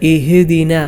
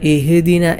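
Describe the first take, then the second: No difference in how they are said.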